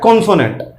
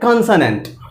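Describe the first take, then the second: First: The first vowel sounds like a long 'oh'. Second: The first vowel sounds like a short 'aw'. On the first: The speaker calls it wrong. "कितना भद्दा लग रहा है? कॉन्सोनेंट बिल्कुल गलत।" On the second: The speaker calls it right. "ओ को बोलिए ऑ। तो कॉन्सोनेंट नहीं बोलना, क्या बोलना है?"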